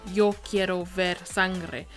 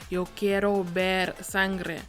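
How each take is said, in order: Both takes have the same delivery.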